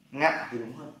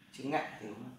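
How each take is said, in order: First: Ngạ pressed louder as the fix; emphatic correction. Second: Said in the usual way. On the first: Shown as a demonstration. Teacher correcting herself, stressing ngạ. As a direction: stress ngạ firmly, correcting chữ ngật. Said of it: "Âm Việt gọi là chữ ngật".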